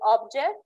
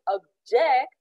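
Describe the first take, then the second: First: The stress is on the first syllable. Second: The stress is on the second syllable. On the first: It names a thing. "Object is something that has a shape and can be felt or seen if we use it as a noun" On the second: It means to express opposition. "if we pronounce it object, it's a verb"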